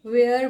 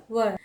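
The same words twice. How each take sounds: First: "वेयर" with an air vowel; common mispronunciation. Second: "वर" with a short central vowel, wur; correct pronunciation. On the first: Teacher showing learners the wrong "वेयर", like wear. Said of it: "जो कि गलत है". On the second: Teacher giving learners the right "वर", said wur. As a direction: keep "वर" to one short wur. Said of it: "ये होगा वर". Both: Shown as a demonstration.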